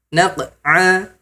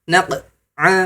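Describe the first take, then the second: No difference in how they are said.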